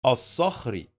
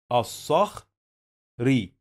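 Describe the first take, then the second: First: Said in the usual way. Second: الصخري said slowly as as-sakh, pause, ree; slow sounding-out of الصخري in two pieces; split into parts. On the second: Shown as a demonstration. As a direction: leave a clear gap before the last syllable of الصخري. Teacher splits word before joining it.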